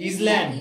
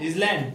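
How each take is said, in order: The two takes are said the same way.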